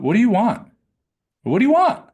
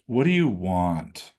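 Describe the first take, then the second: First: "What do you want?" thrown up high and loud, rising on "want"; "What do you want?" squeezed high and bright, ending up; wrong high upshift. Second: "What do you want?" dropped low and slow, falling onto "want"; "What do you want?" slow and low, landing on "want"; downshift. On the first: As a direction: ask "What do you want?" with a strained, lifted pitch, the wrong way. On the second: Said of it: "A downshift". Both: Shown as a demonstration.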